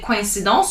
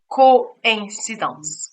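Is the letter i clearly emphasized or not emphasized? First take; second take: not emphasized; emphasized. First: The letter i is not emphasized. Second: The letter i is clearly emphasized. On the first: The speaker calls it wrong. "You don't say coincidence" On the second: The speaker calls it right. "you say coincidence"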